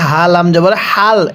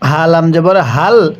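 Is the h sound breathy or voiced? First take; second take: breathy; voiced. First: The h is said with plain breathy air. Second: The h is said with a voiced sound. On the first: The speaker calls it wrong. "অনেকেই হাল আমজবর হাল এরকমভাবে পড়ি, এরকমভাবে পড়লে পড়াগুলো সহিশুদ্ধ হবে না।" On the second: The speaker calls it right. "এই গোল হাগুলো উচ্চারণ করার সময় আমরা মুখে এক প্রকার আওয়াজ করব।"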